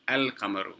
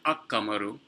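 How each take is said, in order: First: The l is clearly pronounced before the q. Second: The l is dropped and the q is doubled. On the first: The speaker calls it right. "you do pronounce the lam" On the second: The speaker calls it wrong. "not ak-qamaru"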